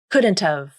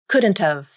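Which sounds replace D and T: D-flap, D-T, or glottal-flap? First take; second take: D-T; D-T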